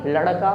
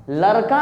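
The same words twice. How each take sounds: First: लड़का with a jerked tongue on ड़; लड़का, retroflex ड़ rather than र; retroflex flap ड़. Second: लड़का wrongly said as "larka", light र; tapped र replacing ड़ in लड़का; mispronounced with र. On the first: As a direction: flick ड़ sharply in लड़का. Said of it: "जीभ को झटके के साथ निकालना है". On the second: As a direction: say लड़का with no tongue flick. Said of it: "लड़का नहीं". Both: Shown as a demonstration.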